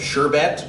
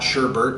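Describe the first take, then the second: First: The second syllable has no R sound. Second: The second syllable has an added R sound. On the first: The speaker calls it right. "There's no R in that second syllable" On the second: The speaker calls it wrong. "it's not sherbert"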